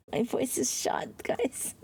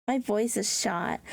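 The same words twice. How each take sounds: First: Breathless laughing half-whisper. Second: Said in the usual way. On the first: Real, not acted. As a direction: giggle it out softly. Repeats complaint through laughter.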